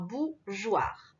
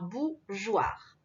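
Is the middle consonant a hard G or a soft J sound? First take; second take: soft J; soft J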